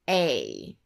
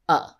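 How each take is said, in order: First: The word is said fully with a clear vowel. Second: The word is said short and weak as uh. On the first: "I'll first say the word in its full form" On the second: "then the reduced form"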